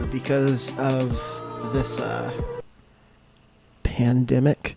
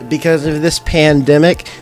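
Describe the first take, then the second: First: The phrase is said quietly, with hesitation. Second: The phrase is said loudly and firmly.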